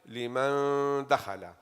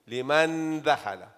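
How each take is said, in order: First: The n is hidden as a nasal sound. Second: The n is pronounced fully with the tongue. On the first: The speaker calls it right. "no you hide it" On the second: The speaker calls it wrong. "you are putting your tongue where the noon is supposed to be"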